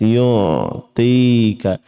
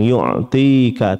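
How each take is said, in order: First: The ain sound is drawn out slightly. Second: The ain sound is cut off abruptly. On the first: The speaker calls it right. "tapi alirkan sedikit" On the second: The speaker calls it wrong. "tidak langsung yu'tika"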